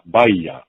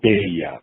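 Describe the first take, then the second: First: The first syllable has an 'ah' vowel. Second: The first syllable has an 'eh' vowel. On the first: It is closer to the original family name. The speaker calls it right. "which is a much more closer pronunciation than beya" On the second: It follows the katakana spelling that was required. The speaker calls it wrong. "you have to pronounce your name in Japanese as Beya"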